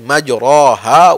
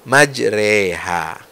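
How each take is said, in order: First: The vowel after r is a full open a. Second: The vowel after r is between a and i. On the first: It follows the ordinary Arabic reading rule. The speaker calls it wrong. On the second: It follows the transmitted recitation with imalah. The speaker calls it right. "antara fathah dengan kasrah"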